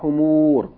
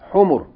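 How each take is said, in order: First: The vowels are drawn out long. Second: The vowels are kept short. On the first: The speaker calls it wrong. "Not humur" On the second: The speaker calls it right. "Short vowels"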